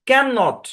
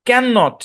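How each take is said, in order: No difference in how they are said.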